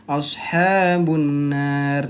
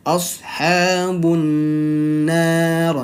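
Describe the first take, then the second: First: Ashabun nar run together, nasal not held; "Ashabun nar" clipped short without the two-beat hum; wrong, rushed reading. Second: "Ashabun nar" with the n held two full beats; slow "Ashabun nar", the nasal hum stretched over two counts. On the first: Teacher to students showing the wrong way, rushed. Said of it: "Nah, itu kurang tepat". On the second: Teacher to students showing the right way, slow held nasal. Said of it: "harus ditahan dua ketukan". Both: Shown as a demonstration.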